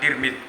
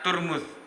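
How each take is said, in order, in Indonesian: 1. Vokal pertama itu i. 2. Vokal pertama itu u. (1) "diucapkan Tirmidz dengan tak kasroh" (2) "membacanya Turmuz dengan tak domah dan mim domah"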